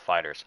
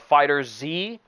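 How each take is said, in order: First: The name ends with a plain s sound. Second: The name ends with the letter Z spelled out. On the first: The speaker calls it right. "Dragon Ball Fighters" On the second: The speaker calls it wrong. "I've been mispronouncing it this entire time"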